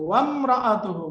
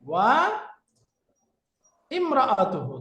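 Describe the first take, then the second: First: The starting vowel is dropped and the words linked. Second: The starting vowel is pronounced as a separate syllable. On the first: "এই যে ওয়ামরাআতুহু মূলত কি ছিল?" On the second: "মূলত কি ছিল? ওয়া ইমরাআতুহু"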